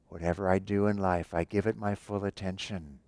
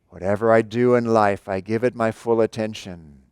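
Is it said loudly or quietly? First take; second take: quietly; loudly. First: It is said quietly but intensely. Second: It is said loudly and energetically.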